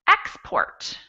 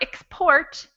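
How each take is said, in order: First: The stress is on the first syllable. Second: The stress is on the second syllable. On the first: It is a noun, a thing sent abroad. "in the noun version of the same word, it's export" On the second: It is the verb, the act of sending. "Or we have the verb to export"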